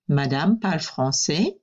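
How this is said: The voice rises at the end. It asks a yes-no question. "Question mark at the end. Change the intonation"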